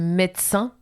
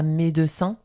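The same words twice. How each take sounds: First: The middle E sound is dropped. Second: The middle E sound is pronounced. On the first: The speaker calls it right. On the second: The speaker calls it wrong.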